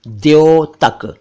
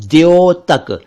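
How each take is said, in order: Both takes have the same delivery.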